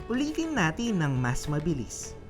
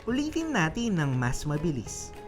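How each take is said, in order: Both takes have the same delivery.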